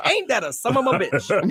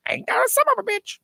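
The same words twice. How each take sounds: First: High-pitched mock exclamation; own catchphrase. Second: Very high squawking parrot. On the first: Co-host quotes himself on about anything, amused exclamation. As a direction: say it as your pet phrase, pitched up. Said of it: "'Cause I always say". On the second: Acted. Co-host's parrot repeats his favourite phrase, high squawk. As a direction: screech it like a cussing bird. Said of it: "my parent would say".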